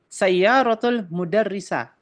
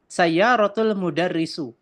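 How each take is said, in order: First: The last word ends in an a vowel. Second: The last word ends in a u vowel.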